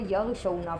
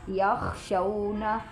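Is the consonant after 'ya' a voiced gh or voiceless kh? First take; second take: gh; kh. First: The consonant after 'ya' is a voiced gh. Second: The consonant after 'ya' is a voiceless kh. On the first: The speaker calls it wrong. "कई लोग जो हैं वो यग़शौना पढ़ते हैं, गैन की आवाज़ निकालते हैं" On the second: The speaker calls it right. "ये खौ है"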